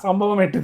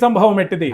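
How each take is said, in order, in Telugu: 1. 'bh' ధ్వనిలో గాలి ఊదు ఉండదు. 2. 'bh' ధ్వనిలో గాలి ఊదు ఉంటుంది. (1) "కానీ ఎక్కడ ఒత్తు పలకరు" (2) "లో రెండు ఒత్తులు వచ్చినాయి, భరద్వాజుడు సంభవము అని"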